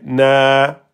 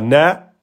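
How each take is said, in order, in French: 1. La voyelle est longue, tenue pendant deux temps. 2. La voyelle est courte, tenue pendant un temps. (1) "mais vous direz na, na en deux temps" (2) "vous dites pas na en un temps"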